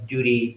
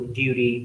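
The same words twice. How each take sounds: First: It is said in an American accent. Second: It is said in a British accent. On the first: "but in American English, that becomes" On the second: "in British English, it's"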